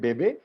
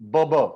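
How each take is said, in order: First: Both vowels sound like 'ay'. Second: Both vowels sound like 'uh'. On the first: The accent mark is on the e. "बेबी को हम बोलते हैं फ्रेंच में बेबे" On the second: There is no accent mark on the e. "अगर यहां पर एग्यू नहीं होता, then the pronunciation would be बब"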